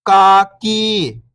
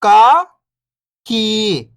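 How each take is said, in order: First: Whole word, level then falling at the end; syllables blended. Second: First syllable lifting, pause, second falling. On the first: Teacher showing beginners the joined word, syllables blended. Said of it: "इनको आपस में लाके पढ़ना है". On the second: Teacher breaking a word down for beginning readers, syllable by syllable. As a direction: sound out each syllable alone, long and separated. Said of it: "एक अक्षर का उच्चारण करके". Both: Shown as a demonstration.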